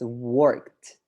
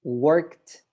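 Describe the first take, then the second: First: The -ed ending is a t sound. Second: The -ed ending is a t sound.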